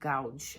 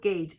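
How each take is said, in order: First: The vowel sounds like ow. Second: The vowel sounds like ay. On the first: The speaker calls it wrong. "A and U together is ow" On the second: The speaker calls it right. "but I know it's gauge"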